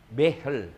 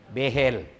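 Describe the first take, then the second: No difference in how they are said.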